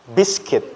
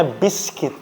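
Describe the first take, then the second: First: Biscuit as Indonesian "bis-ku-it"; spelling pronunciation. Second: Biscuit as "BIS-kit"; English pronunciation. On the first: Teacher warning against the wrong reading, biscuit as "bis-kwit". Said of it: "Bukan biskuit ya". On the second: Teacher giving students the correct reading, biscuit as "BIS-kit". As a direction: silent u in biscuit, ending "kit". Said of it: "dibacanya biscuit". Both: Shown as a demonstration.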